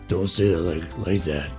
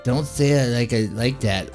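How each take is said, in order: First: It is said in a low, manly voice. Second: It is said in a snippy, bitchy girl's voice. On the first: "let me make her sound like a man" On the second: "let me give her a bitchy voice"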